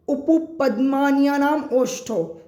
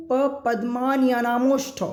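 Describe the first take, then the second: First: Slow recitation, "ओष्ठो" set apart from "उपपद्मान्यानाम"; sandhi split. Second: "उपपद्मान्यानाम ओष्ठो" with the final m run straight into the o; sandhi joined. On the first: Teacher reading out a Sanskrit sutra for students, words split apart. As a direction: say "ओष्ठो" as a separate word after "उपपद्मान्यानाम". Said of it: "इसको तोड़ेंगे तो और अच्छा". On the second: Teacher showing students a hard-to-read sutra, sandhi joined. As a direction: link "उपपद्मान्यानाम" and "ओष्ठो" as one word. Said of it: "अब यहाँ पर संधि हुआ". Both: Shown as a demonstration.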